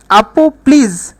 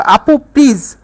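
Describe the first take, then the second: First: Slow, calm আপু please; soothing slow plea. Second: Said in the usual way. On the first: Shown as a demonstration. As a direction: say আপু please gently and slowly, like asking politely. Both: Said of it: "শান্তভাবে বলতেছো".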